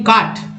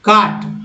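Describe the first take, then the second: Both takes have the same delivery.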